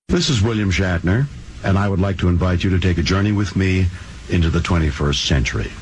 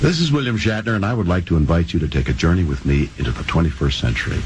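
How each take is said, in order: First: It sounds laid back and relaxed. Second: It sounds more excited and energetic.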